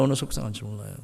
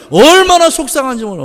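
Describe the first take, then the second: First: Much lower and softer, 얼마나 half swallowed; soft echo. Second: Higher and louder, stressing 얼마나 with a falling tune; loud lament. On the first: Pastor echoing his own line to the congregation, soft echo. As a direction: drop to a soft echo of 얼마나 속상한지 몰라요. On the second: Pastor to the congregation, loud lament. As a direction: belt out 얼마나 속상한지 몰라요. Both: Shown as a demonstration.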